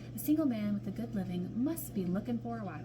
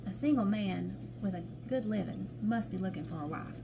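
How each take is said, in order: First: It is read in a British accent. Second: It is read in a Southern American accent. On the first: The speaker calls it wrong. "I just don't need to say it in a British accent" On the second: The speaker calls it right. "Hold on, Southern accent"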